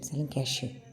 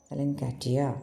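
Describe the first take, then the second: First: The word ends with a 'sh' and 'yo' sound. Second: The word ends with a 't' and 'ia' sound. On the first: This is how the sellers actually say it. The speaker calls it right. "അങ്ങനെയല്ല pronunciation, സെലിൻകാഷ്യോ അങ്ങനെയാണ്" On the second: This is how the spelling seems to read. The speaker calls it wrong. "ഞാൻ സെലിൻകാറ്റിയ എന്നാണ് വായിച്ചത്"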